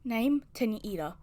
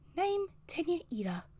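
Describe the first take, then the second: First: It is said in a normal speaking voice. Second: It is said in a put-on character voice. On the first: "I'll just do it in my normal voice" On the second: "What is Recovery Girl's voice?"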